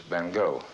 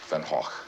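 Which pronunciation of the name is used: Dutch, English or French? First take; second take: English; Dutch. First: The name is said the English way. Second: The name is said the Dutch way. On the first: "in the English-speaking countries, he's referred to as" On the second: "the proper Dutch pronunciation is"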